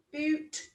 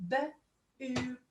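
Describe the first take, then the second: First: Said in the usual way. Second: "B-oot" split, long "oo"; sounding out. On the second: Shown as a demonstration. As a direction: stretch the "oo" in "B-oot". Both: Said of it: "Sound it out".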